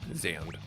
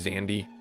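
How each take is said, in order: First: The final E is silent, one syllable. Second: The final E is pronounced as a syllable. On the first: The speaker calls it right. "The E is silent" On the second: The speaker calls it wrong. "I was calling him Zandy last time. That's not his name"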